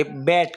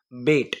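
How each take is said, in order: First: બેટ said like English "bat"; open vowel. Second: બેટ said like English "bet"; close vowel. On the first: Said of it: "નહીં, એ બેટ કહેવાય". (બેટ પહોળા ઉચ્ચારે, રમવાના બેટ જેવું) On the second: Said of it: "આ શું કહેવાય?". (બેટ સાંકડા ઉચ્ચારે, શરતવાળું) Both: Shown as a demonstration.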